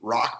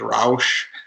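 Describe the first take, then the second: First: It is said like English 'rock', hard ending. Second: It is said with a German 'ow' vowel, soft ending.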